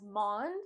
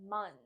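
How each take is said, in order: First: Mond with a full open vowel, MOND; mistaken second syllable. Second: Mund with the short U of month. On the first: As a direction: say mond rhyming with pond. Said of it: "but to say it correctly". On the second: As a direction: say mund as MUN. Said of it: "Kind of like the word month". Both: Shown as a demonstration.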